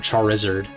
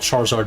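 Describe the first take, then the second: First: The ending is said to rhyme with lizard. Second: The ending is said the usual way. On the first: The speaker calls it wrong. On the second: The speaker calls it right.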